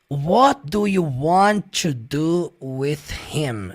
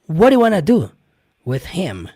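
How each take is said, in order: First: Each word is said separately, with 'want to' in full. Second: The words run together, with 'want to' as 'wanna'. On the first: "a personagem não fala dessa forma" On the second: "fala de modo muito mais rápido e de modo mais conectado"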